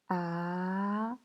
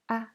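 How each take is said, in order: First: The pitch rises from mid to high. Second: The pitch is short, light and unstressed. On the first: "Deuxième ton, c'est un ton montant" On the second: "c'est un ton neutre"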